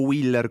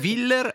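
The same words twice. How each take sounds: First: The name is said in an Italian way. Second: The name is said in a German-like way. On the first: "come dicono in Italia" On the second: "alla germanofona"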